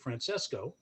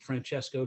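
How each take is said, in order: First: The name is pronounced the Americanized way. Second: The name is pronounced the original Italian way. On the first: "Americanized ... to Francesco" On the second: "she Americanized Francesco"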